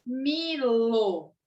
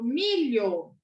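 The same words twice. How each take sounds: First: "milo" drawn out with plain L; H left out. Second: "milho" drawn out with palatal LH; LH sound shown. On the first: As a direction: sound out "milo", ending in a hard lo. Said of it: "Se eu tiro a letra H". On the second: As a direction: sound out "milho", ending in a clear lyo. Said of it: "vem pra modificar o som". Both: Shown as a demonstration.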